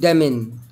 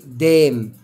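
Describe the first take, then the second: First: The final n sound is pronounced. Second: The final n sound is silent. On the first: The speaker calls it wrong. "مش هقول دمن" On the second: The speaker calls it right. "هقول ايه دام"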